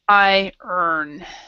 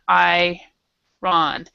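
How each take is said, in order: First: The second part sounds like 'earn'. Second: The second part sounds like 'ron'. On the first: The speaker calls it right. "it is I earn" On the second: The speaker calls it wrong. "people separate them... but it's actually not pronounced that way"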